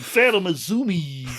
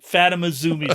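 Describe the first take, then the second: First: It is said in a Kermit the Frog voice. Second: It is said in the speaker's normal voice.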